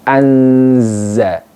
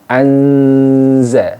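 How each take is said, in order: Both takes have the same delivery.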